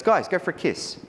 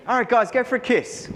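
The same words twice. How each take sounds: First: A lightly higher, breezy Jerry instruction; tossed-off kiss cue, confident and casual; Jerry's easy order. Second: Put-on much higher, louder overeager kid copying the line; a sixteen-year-old trying too hard; eager teenage copy. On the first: Retold or imitated. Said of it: "he goes". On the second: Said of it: "It didn't sound good coming from my mouth".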